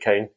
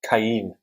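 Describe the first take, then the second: First: The name is said as a single syllable. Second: The name is said with more than one syllable. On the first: This is the local Manx way of saying it. The speaker calls it wrong. "It's the the Manx pronunciation" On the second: This is the name's actual pronunciation. The speaker calls it right. "It's actually pronounced"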